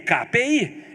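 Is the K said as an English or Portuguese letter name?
Portuguese. K is said with its Portuguese letter name. The speaker calls it wrong. "K P I também não existe"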